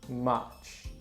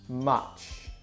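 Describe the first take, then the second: The two takes are said the same way.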